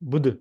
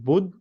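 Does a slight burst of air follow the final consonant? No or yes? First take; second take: yes; no. First: The final consonant releases a slight burst of air. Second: The final consonant stops with no air release. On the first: The speaker calls it right. "रोकने के बाद हल्की हवा निकलती है" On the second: The speaker calls it wrong. "नहीं"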